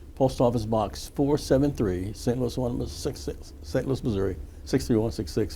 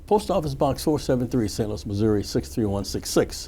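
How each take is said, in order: First: It is said slowly. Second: It is said at normal speed.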